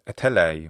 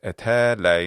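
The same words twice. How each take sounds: First: The open-syllable vowel has its normal length. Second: The open-syllable vowel is held far too long. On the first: The speaker calls it right. "instead of etelei" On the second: The speaker calls it wrong. "the vowel in that open syllable is lengthened too much"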